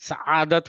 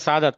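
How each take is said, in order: First: A throat catch splits the middle vowel from the start. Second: The middle vowel runs smoothly into the first syllable. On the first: The speaker calls it right. "सआदत होता है" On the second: The speaker calls it wrong. "हम बोलते हैं सादत, नहीं"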